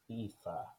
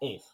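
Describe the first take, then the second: First: The name ends on a vowel sound. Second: The name ends on a consonant sound. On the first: The speaker calls it right. "It's pronounced Aifa" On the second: The speaker calls it wrong. "That is vomitously bad"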